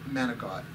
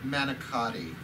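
First: The word ends without a final vowel. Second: The word ends with a full final vowel. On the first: This is the family's everyday way of saying it. The speaker calls it right. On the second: This is the form for outsiders to the family's culture. The speaker calls it wrong.

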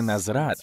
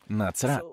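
First: The middle consonant is a z sound. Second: The middle consonant is a ts sound. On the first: The speaker calls it wrong. "Це не «назрат»" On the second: The speaker calls it right. "а «ци», «нацрат»"

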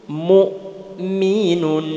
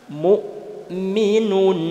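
The two takes are said the same way.

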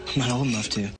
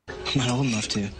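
Both takes have the same delivery.

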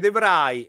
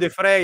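First: The surname begins with a V sound. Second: The surname begins with an F sound. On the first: The speaker calls it wrong. "non si dice The Vrij" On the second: The speaker calls it right. "io ti dico The Frey"

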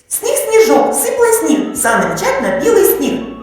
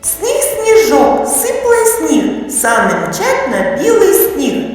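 First: It is spoken at the fastest pace. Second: It is spoken at a normal, moderate pace. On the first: "Промовляємо ще швидше" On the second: "Повторюйте за мною"

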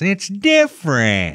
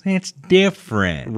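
First: It is said in a put-on Karen voice. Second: It is said in a normal voice.

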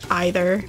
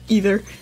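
First: It is said with a British pronunciation. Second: It is said with an American pronunciation. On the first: "go with the more English way rather than the American way" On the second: "Instead of either"

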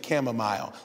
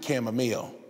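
First: The last syllable sounds like the word 'mile'. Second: The last syllable does not sound like 'mile'. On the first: The speaker calls it wrong. "I heard some people say chamomile. It's not chamomile. You walk a mile" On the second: The speaker calls it right. "but you drink chamomile"

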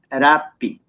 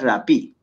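First: The stress is on the first syllable. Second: The stress is on the last syllable. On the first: The speaker calls it right. "es rapi" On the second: The speaker calls it wrong. "no tiene la mayor fuerza de voz en la última, no es rapi"

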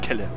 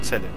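First: The name starts with a k sound. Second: The name starts with a ts sound. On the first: The speaker calls it wrong. "Und nicht Kelle" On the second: The speaker calls it right. "Zelle kann ich aussprechen"

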